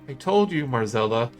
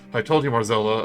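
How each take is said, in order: First: The voice is at a normal pitch. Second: The voice is put on deep and low.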